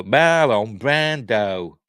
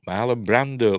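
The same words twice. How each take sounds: First: Loud, very drawn-out name with exaggerated vowels; slow, hammed-up comic voice; Harry Enfield. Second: Said in the usual way. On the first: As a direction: stretch the name out slowly like a comedy catchphrase. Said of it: "Harry Enfield thing".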